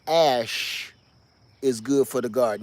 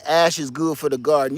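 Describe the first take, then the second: First: The phrase is spoken more slowly. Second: The phrase is spoken quickly.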